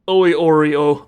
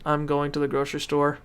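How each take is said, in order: First: The sentence is said with almost only vowels. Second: The sentence is said with all its consonants.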